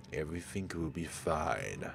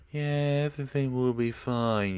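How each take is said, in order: First: Softer, eerily calm promise; a hint of a creepy calm madman; calm eerie Jimmy. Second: Loud, higher sarcastic mimicry; mocking quote. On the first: Jimmy calmly reassuring his friend before lighting gas, eerie. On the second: Mocking dead Jimmy's promise after the explosion, sarcastic. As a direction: throw his words back at him scornfully. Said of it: "you say".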